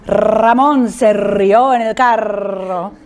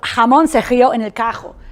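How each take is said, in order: First: The r is trilled at the front of the mouth. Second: The r is made at the back of the mouth.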